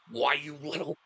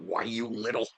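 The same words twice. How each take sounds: First: It is said in his normal voice. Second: It is said in a Homer Simpson voice.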